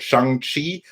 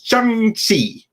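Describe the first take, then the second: First: "Shang-Chi" said as "shung-shee"; mispronunciation example. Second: "Shang-Chi" drawn out slowly, higher, as "shung-tsee"; corrective pronunciation. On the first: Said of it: "you all need to do better". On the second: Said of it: "Do better. It's". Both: Shown as a demonstration.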